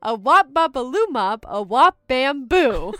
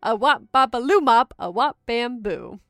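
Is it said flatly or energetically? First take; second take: energetically; flatly. First: It is said with lots of energy. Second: It is said flatly, without much energy.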